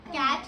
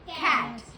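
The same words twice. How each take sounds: First: The first consonant has no breathy puff. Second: The first consonant has a strong breathy puff. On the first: The speaker calls it wrong. "कैट नहीं बोलना" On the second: The speaker calls it right. "क और ख मिलके"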